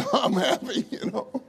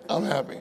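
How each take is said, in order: First: Laughing through the words, pitched up. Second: Said in the usual way. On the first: Retold or imitated. Preacher joking to his congregation, laughing. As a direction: burst into a laugh as you say it.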